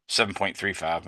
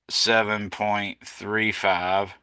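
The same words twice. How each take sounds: First: Said in the usual way. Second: Slow, careful restating; slow correction. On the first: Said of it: "Or excuse me". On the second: Shown as a demonstration. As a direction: spell out each number slowly. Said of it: "my fault".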